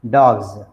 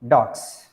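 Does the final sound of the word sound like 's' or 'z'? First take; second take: z; s. First: The word ends with a buzzing z sound. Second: The word ends with a hissing s sound. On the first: The speaker calls it right. "We pronounce it as za" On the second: The speaker calls it wrong. "not dogs"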